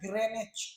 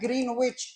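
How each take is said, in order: First: The middle w sound is left out entirely. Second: The middle w sound is pronounced clearly. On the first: The speaker calls it right. "सही उच्चारण होता है इसका ग्रेनिच" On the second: The speaker calls it wrong. "भले लोग उच्चारण करता है ग्रीनविच, लेकिन ग्रीनविच उच्चारण नहीं होता"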